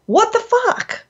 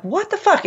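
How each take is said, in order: First: High-pitched, astonished outburst; incredulous exclamation. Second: Seriously concerned. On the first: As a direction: toss it up high in mock disbelief. Demonstrates incredulous example phrase. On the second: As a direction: demo of concerned disbelief. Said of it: "everybody knows that you're seriously concerned". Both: Shown as a demonstration.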